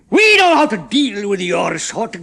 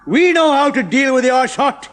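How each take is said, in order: First: Slow, loud menacing growl. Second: Loud, slow menacing growl. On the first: Chemist growling at the prisoners, slow and loud. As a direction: threaten them slowly. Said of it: "growled the chemist". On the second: Chemist growling at Ronnie, loud and slow. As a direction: threaten them. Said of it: "he growled". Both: A narrator's reading.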